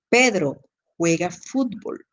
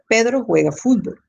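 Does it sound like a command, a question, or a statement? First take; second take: command; statement. First: It is said forcefully, after a pause following the name. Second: It is said as a plain, level statement. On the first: It gives an order. "se está dando una orden" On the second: It simply gives information. "yo estoy haciendo una afirmación, un enunciado básico"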